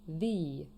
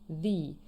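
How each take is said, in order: First: The article is said in its before-vowel form. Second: The article is said in its before-vowel form.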